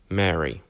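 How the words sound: The pitch falls at the end, like a statement. It is a plain answer.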